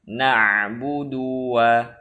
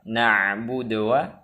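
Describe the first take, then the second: First: The u after the d is drawn out long. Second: The d is said with no vowel after it. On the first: "memanjangkan dhammah sehingga terbaca" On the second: "mensukunkan dal sehingga terbaca"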